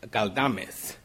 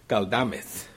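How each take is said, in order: The two takes are said the same way.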